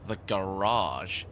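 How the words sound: The word is said in an American accent.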